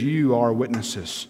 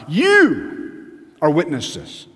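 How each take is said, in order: First: "You" slightly drawn out, low pitched; lower, restrained emphasis on "You"; gentler stress on YOU. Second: Hugely drawn-out "You", falling after it; exaggerated stress on YOU. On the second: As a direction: blast out "You", pause, then drop on "are witnesses". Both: Shown as a demonstration. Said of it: "emphatic means emphasize".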